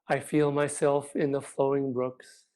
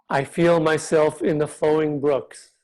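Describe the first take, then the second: First: It is said more quietly. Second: It is said out loud.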